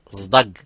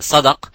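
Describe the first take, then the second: First: The word begins with a z sound. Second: The word begins with an emphatic s sound. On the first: This is how a regional dialect says it. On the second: This is the standard Arabic form.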